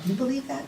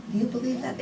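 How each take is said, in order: First: "believe" leaned on, softly; stress on believe. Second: "you" leaned on, softly; stress on you. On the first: Asking the room if they believe, stress on believe. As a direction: press on "believe" as you ask. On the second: Repeating to each listener, stress on you. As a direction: turn it on "you" personally. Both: Real, not acted.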